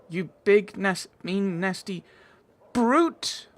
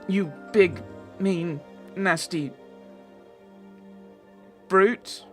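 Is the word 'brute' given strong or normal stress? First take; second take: strong; normal. First: The word brute gets strong stress. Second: The word brute gets normal stress.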